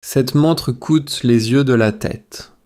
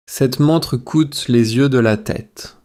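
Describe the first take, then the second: No difference in how they are said.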